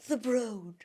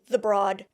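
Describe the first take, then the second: First: The name is said in an uppity, posh-sounding way. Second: The name is said just as it is spelled. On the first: The speaker calls it right. "what I now know is pronounced the Broad, which sounds so utterly uppity" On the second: The speaker calls it wrong. "It is spelt broad. B R O A D, the Broad. And so that's how I was pronouncing it"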